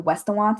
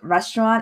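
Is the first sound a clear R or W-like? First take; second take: W-like; clear R. First: It begins with a W-like sound. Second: It begins with a clear R sound. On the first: "I would pronounce them like W's" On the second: "instead of like restaurant"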